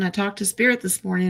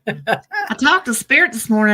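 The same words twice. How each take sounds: First: It is read in a plain, neutral accent. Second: It is read in a Southern US accent.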